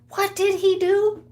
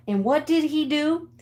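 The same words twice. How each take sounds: First: "what did he do" much higher and louder; indignant repeat. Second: "what did he do" pitched up, rising at the end; rhetorical question. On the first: Storyteller asks viewers about the rooster, indignant "what did he do". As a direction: punch out "what did he do" in high outrage. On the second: Storyteller cues viewers for the attack, rhetorical "what did he do". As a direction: ask "what did he do" leadingly, a bit high. First asking, building up. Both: Real, not acted.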